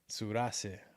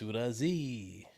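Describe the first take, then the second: First: The name is pronounced in a Spanish style. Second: The name is pronounced in a French style. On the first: "I was saying it like you would say it in Spanish" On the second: "he's French, so maybe it's Surazi"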